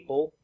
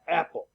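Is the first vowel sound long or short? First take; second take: long; short. First: The first vowel is a long A sound. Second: The first vowel is a short A sound. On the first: The speaker calls it wrong. "you don't say a, a, apple" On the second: The speaker calls it right. "that's a short vowel sound"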